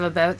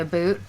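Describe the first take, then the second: First: It is said as standard about. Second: It is said as stereotyped Canadian aboot.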